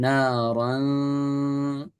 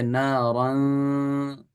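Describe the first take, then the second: The two takes are said the same way.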